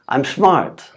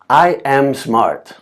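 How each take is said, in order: First: I and am merge into one syllable. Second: I and am are said as separate words. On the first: "how do we natives normally say it? We say" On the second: "For example"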